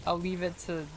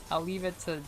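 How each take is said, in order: Both takes have the same delivery.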